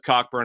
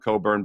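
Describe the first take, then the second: First: The k sound in the middle is pronounced. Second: The k sound in the middle is silent. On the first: The speaker calls it wrong. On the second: The speaker calls it right.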